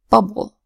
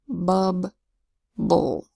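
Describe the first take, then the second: First: The syllables are blended fast with one B sound. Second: The syllables are said slowly with two B sounds. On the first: "when you say it fast, you just say bubble. That's one B sound in the middle" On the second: "if you pronounce the two syllables in a word like bubble slowly, you'll hear the same consonant sound twice"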